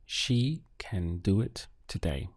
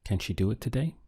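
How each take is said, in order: First: "She can do it today" as a falling statement; statement intonation. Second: "Can she do it today" rising on "today"; English question tune climbing through "today"; question intonation. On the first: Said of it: "as a statement". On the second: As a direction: ask it, lifting "today" at the end. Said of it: "let's ask it as a question". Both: Shown as a demonstration.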